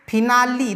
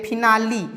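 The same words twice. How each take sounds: First: First take of फिनाली, spoken as 'finali'; pronunciation demo. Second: फिनाली as 'finali', with a short i on the l; pronunciation demo repeated. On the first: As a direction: say फिनाली as 'finali', ending on a short i. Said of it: "देखिए यहाँ L के बाद ई है last में". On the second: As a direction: point back to फिनाली and say it as 'finali'. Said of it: "यहाँ पे L में छोटी ई की मात्रा". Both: Shown as a demonstration.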